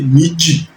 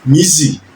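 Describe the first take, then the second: First: The middle consonant is a strong sound. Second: The middle consonant is a soft sound. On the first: This is how the Imoga variety says it. "they go for strong phonemes" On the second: This is how other varieties say it. "instead of"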